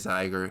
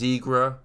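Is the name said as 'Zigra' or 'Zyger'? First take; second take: Zyger; Zigra. First: The name is said as 'Zyger'. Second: The name is said as 'Zigra'. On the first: The speaker calls it wrong. "I say Zyger, not Zigra. My bad" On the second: The speaker calls it right. "It is pronounced Zigra"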